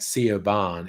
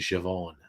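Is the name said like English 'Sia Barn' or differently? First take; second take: Sia Barn; different. First: It is read like the English words 'Sia Barn'. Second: It is not read like the English 'Sia Barn'. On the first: The speaker calls it wrong. "looks like Sia Barn" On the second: The speaker calls it right. "is actually Siobhan"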